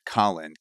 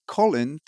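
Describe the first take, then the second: First: The name is said in an American accent. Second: The name is said in a British accent.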